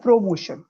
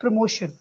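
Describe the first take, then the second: First: Promotion as PRO-mo-shun; full o in first syllable of promotion; wrong pronunciation. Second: Promotion as pruh-MO-shun; promotion, stress on MO; correct pronunciation. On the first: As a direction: show the mistaken promotion. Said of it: "it is not promotion". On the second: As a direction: model promotion with a reduced first vowel. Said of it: "it is". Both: Shown as a demonstration.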